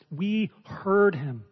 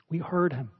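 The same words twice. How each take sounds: First: Heard stretched slow and weighty; slow emphatic quote. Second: Said in the usual way. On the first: Shown as a demonstration. Preacher to congregation, quoting John's witness, slow and emphatic. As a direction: let each word land, slowly stressing heard. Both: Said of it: "He says".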